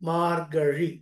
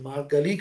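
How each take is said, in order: First: The middle consonant is zh, tongue not touching. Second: The middle consonant is a plain l. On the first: The speaker calls it right. "నాలుకని కొద్దిగా gap ఇచ్చి చదవాలి" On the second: The speaker calls it wrong. "అది మార్గలి కాదు"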